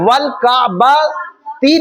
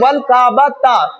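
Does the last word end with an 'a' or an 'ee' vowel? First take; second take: ee; a. First: The last word ends with an 'ee' vowel. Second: The last word ends with an 'a' vowel. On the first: The speaker calls it wrong. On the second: The speaker calls it right.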